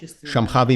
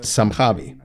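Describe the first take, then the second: First: The word begins with an 'sh' sound. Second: The word begins with an 's' sound. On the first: "Shambhavi Mudra" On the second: "sometimes pronounced Sambhavi"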